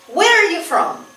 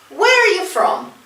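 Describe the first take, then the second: No difference in how they are said.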